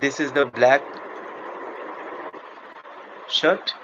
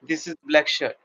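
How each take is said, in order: First: The voice rises at the end like a question. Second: The voice falls at the end like a statement. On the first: It is asked as a question. "making it a question" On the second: It is a plain statement. "this is the regular line text"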